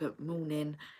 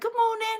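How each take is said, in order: First: It is said in a low, masculine voice. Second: It is said in a high-pitched voice.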